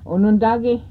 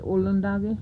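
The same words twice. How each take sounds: First: Onondage with an N after the first O; N pronunciation. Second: Olondage with an L after the first O; L pronunciation. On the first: Teacher showing learners the everyday variant, Onondage with N. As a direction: say Onondage, N in the second syllable. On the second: Teacher showing learners the correct variant, Olondage with L. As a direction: say Olondage, L in place of N. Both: Shown as a demonstration. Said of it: "two different ways of saying it".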